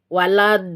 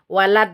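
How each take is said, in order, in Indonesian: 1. Bunyi d di akhir dipanjangkan ke depan. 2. Bunyi d di akhir ditekan dan dipotong. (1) "itu harus ada" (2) "menekan bagian depan jadi begini suaranya"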